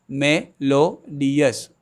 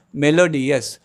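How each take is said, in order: First: "melodious" slowly, me-lo-dious, a beat at a time; "melodious" drawn out syllable by syllable; syllables spelled out slowly. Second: Said in the usual way. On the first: Shown as a demonstration. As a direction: sound out "melodious" for learners. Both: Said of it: "Three syllables are there".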